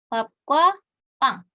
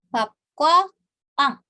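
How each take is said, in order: No difference in how they are said.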